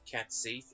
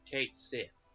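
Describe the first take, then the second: First: The first word has a short 'a' vowel. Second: The first word has a long 'ay' vowel. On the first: The speaker calls it wrong. "the way they pronounce it in the anime is is Cat Sith is wrong" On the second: The speaker calls it right. "It's Cait Sith because an A I is not a is not an A sound"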